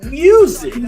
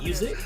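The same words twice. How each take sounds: First: The first vowel is drawn out long. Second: The first vowel is short and normal.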